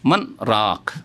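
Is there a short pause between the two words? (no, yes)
yes. A brief stop separates the words without releasing breath. The speaker calls it right. "শ্বাস ছাড়বেন না কিন্তু একটু থামবেন"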